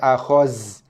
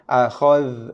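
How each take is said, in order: First: It ends with a 'z' sound. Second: It ends with a 'th' sound as in 'this'. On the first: The speaker calls it wrong. "bukannya akhaz" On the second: The speaker calls it right. "kena baca dengan makhraj zal lah"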